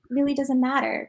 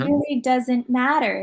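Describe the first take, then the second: First: It is said quickly, rushing through the words. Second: It is said slowly with pauses between words. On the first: The speaker calls it right. "I would probably just speed it up a little bit" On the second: The speaker calls it wrong. "I probably wouldn't use all those pauses there"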